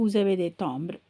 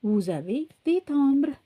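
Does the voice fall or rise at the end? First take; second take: fall; rise. First: The voice falls at the end like a statement. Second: The voice rises at the end like a question. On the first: It states that the listener has stamps. "இது பதில் சொல்கிறதா இருந்தால்" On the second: It asks whether the listener has stamps. "அதையே வந்து கேள்வியாகவும் மாற்றி"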